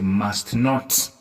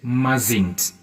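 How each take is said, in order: First: It is said as two separate full words. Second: It is said as one shortened contracted word. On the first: "you say must not" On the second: "you cut these two words like mustn't"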